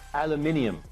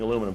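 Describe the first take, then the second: First: It is said the British way, with five syllables. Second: It is said the American way, with four syllables.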